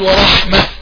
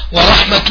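First: The word ends with a silent h sound. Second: The word ends with a t sound, run on. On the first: The reader stops on this word. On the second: The reader continues without stopping.

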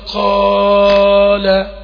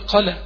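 First: The long vowel is stretched well beyond normal. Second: The long vowel is clipped shorter than normal. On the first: "ويزوده كده" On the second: "ولا يجي ينقص"

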